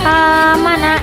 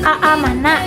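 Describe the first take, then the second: First: The opening vowel is one smooth long vowel. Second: The opening vowel is broken by a glottal catch. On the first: "kita ganti menjadi amana" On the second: "ada dua hamzah yang sama"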